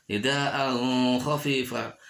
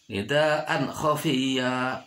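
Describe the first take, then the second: First: "nidaan khafifa" with n blurred into a held hum; sung, "nidaan khafifa", nasal stretched between the words; wrong hummed reading. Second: "nidaan khafiya" with a short crisp n; slow "nidaan khafiya", no hum; clear idhar reading. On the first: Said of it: "tidak boleh dibaca". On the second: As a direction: end "nidaan" cleanly before "khafiya". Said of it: "harus dibaca jelas". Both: Shown as a demonstration.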